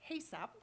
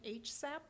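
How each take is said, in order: First: The H is blended into one word, 'ha'. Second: The H is said as its letter name. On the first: "but it's HASAP" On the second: "It seems like it should be H SAP"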